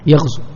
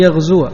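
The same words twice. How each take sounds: First: The word ends with a short u vowel. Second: The word ends with the syllable wa. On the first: The verb is in the jussive mood. "بحذف حرف العلة، تحذف هذه الواو" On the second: The verb is in the subjunctive mood. "إن ظهرت الفتحة على الواو لن يغزو"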